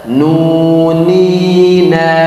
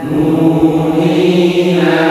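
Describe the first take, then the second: Both takes have the same delivery.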